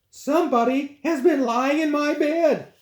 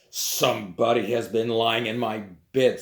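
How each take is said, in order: First: It is said in a medium voice. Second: It is said in a deep, big voice.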